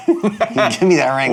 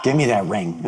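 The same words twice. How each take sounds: First: Slow, laughing, higher and louder; laughing demand. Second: Said in the usual way. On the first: Acted. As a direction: beg for the ring through laughter. Repeated, laughing, slower.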